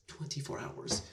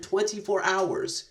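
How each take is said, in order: First: Twenty-four hours breathed as a whisper; whispered echo of Twenty-four hours; awed whisper. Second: Twenty-four hours drawn out slowly, pitched up; slow, marvelling emphasis on Twenty-four hours; slow emphatic stress. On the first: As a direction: drop to a hushed whisper of disbelief. Repeats it in awe. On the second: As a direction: lean hard on each word of Twenty-four hours. Stressing how short the time was. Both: Real, not acted.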